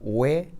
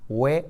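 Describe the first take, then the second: First: The syllable is said at a slower pace. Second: The syllable is said at a faster pace.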